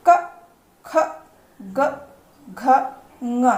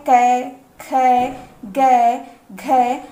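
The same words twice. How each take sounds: First: क, ख, ग, घ, ङ each ending in a short schwa; correct letter names. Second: कै, खै, गै, घै each drawn out with an "ai" vowel; wrong letter names. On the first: Teacher showing the right way to read the alphabet, short schwa endings. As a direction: say क, ख, ग, घ, ङ singly with a short "uh". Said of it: "सही उच्चारण करना देख लेते हैं". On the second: Teacher mimicking a common mistake, long ai endings. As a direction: stretch the ai in कै, खै, गै, घै, slow and loud. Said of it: "कुछ लोग इसे इस तरीके से उच्चारित करते हैं". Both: Shown as a demonstration.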